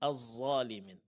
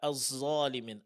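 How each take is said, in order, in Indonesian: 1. Konsonan pertama adalah 'z' yang ditebalkan. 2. Konsonan pertama adalah 'z' yang ditebalkan.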